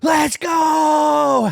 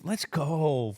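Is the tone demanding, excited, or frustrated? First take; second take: excited; frustrated. First: It sounds pumped up and excited. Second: It sounds annoyed and frustrated. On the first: The speaker is fired up and ready. "Hat like fucking juiced" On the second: The speaker is fed up with how things are going.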